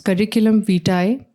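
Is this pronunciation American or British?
British. It is said with a British pronunciation. "in British English"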